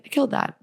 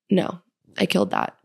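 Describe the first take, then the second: First: I killed that lifted higher, proud; higher, proud second take of killed; proud repeat. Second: Said in the usual way. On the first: Real, not acted. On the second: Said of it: "I'm usually so critical of my performance".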